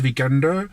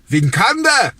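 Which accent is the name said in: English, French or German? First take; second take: English; German. First: The name is said with an English accent. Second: The name is said with a German accent. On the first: "À l'anglaise" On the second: "à l'allemande"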